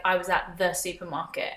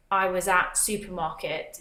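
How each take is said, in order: First: "at the supermarket" with "the" kept in; right "at the supermarket". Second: "at supermarket" said with no article; wrong "at supermarket". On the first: Vlogger shows the phrasing Brits always use. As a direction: say "at the supermarket" the normal way. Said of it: "It would always be like". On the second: Vlogger shows the phrasing Brits would never say. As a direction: drop "the" in "at supermarket". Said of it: "You wouldn't say". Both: Shown as a demonstration.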